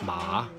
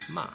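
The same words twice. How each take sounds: First: The syllable is said with a third-tone pitch. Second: The syllable is said on a high pitch. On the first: "the third tone, means horse" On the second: "first tone is high ma"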